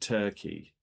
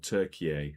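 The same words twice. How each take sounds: First: It is said as Turkey, two syllables. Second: It is said as Türkiye, three syllables. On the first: This is the older form of the name. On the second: This is the new official form of the name.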